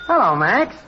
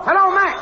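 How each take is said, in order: First: Said in the usual way. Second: High-pitched hailing yell; yelled test call. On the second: Acted. Technician hailing Max over the air, high yelling. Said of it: "yelling, "Hello, Max".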